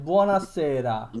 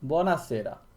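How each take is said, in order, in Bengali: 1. শব্দটি টেনে, লম্বা সুরে বলা হয়েছে। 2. শব্দটি ছোট করে বলা হয়েছে, টান ছাড়া। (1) "ঢং করে যখন কথা বলবা তখন টান দিবা" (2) "টানটা দিবা না"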